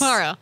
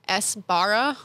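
First: The initial S is barely audible. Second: The initial S is clearly pronounced. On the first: The speaker calls it right. "it's a very subtle S where it's just not there" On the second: The speaker calls it wrong. "Because I was getting too into the letters"

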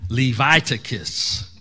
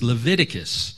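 First: Its first part sounds like the name Levi. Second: It is said in the usual way.

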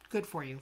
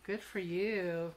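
First: It is said plainly and sincerely. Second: It is said in a mocking, sarcastic tone.

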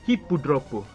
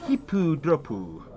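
First: It is said plainly, without a put-on accent. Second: It is said in an exaggerated Japanese-style accent.

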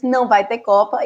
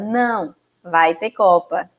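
First: It runs on with no pause after 'não'. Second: There is a pause after 'não'. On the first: There will be no World Cup. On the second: Yes, there will be a World Cup. "E agora"

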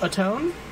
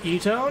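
First: The word begins with an 'a' vowel sound. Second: The word begins with an 'e' vowel sound. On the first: The speaker calls it right. "more like atone" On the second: The speaker calls it wrong. "it's not etone"

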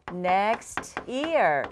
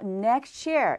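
First: The two words are said separately. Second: The two words run together in linking.

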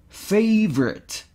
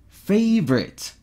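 No difference in how they are said.

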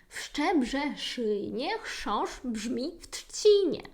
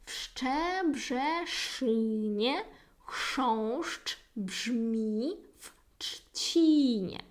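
First: The sentence is said at a faster pace. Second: The sentence is said at a slower pace.

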